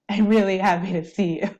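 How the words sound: It is said in a sad, troubled tone. The speaker is actually sad or troubled. "that I was sad or that I was troubled"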